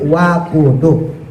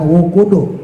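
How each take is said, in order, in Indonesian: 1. Vokal pertama adalah bunyi a. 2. Vokal pertama adalah bunyi u. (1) "tapi wakudu" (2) "bukan wukudu"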